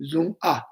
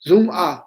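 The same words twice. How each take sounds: First: Said in the usual way. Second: "Zung A" said loud with a falling tune; "Zung A" loud, stressed; Tibetan Zung A. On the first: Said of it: "Zung A means hold it". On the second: Shown as a demonstration. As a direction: announce "Zung A" firmly, dropping at the end. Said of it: "we say in Tibetan".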